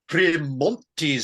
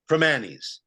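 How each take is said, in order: First: The name is said with a clear T sound. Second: The name is said without a T sound. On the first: The speaker calls it wrong. "This Primontes stuff makes it sound like a classy establishment" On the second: The speaker calls it right. "It's pronounced Primanis"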